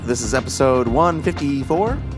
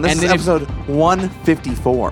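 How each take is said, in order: First: The voice rises at the end like a question. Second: The voice falls at the end like a statement. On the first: The speaker sounds unsure of the number. The speaker calls it wrong. "Every week you say it as a question" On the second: The speaker sounds certain of the number. The speaker calls it right. "Say it with confidence"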